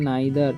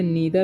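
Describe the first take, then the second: First: The first vowel is 'eye', with a voiced 'th'. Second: The first vowel is 'ee', with a voiced 'th'. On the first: The speaker calls it right. "इसे पढ़ना है नाइदर" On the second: The speaker calls it wrong. "इसे नीदर नहीं पढ़ना है"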